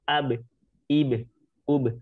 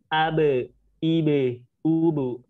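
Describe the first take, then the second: First: The b release bounce is light and natural. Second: The b release bounce is exaggerated. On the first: The speaker calls it right. "ini pantulan natural" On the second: The speaker calls it wrong. "jangan sampai pantulan ditambah-tambahkan"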